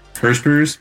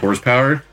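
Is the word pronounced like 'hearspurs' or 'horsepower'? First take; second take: hearspurs; horsepower. First: The word is mangled into 'hearspurs'. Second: The word is pronounced in the normal way.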